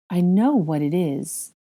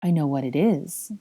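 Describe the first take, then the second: First: Slow, wondering statement; stretched-out stunned discovery; dawning realisation. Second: Understated, stunned repetition; subdued, dazed realisation; utter shock. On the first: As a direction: realise it word by word. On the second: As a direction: say it to yourself in shock. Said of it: "repeated in utter shock". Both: Acted.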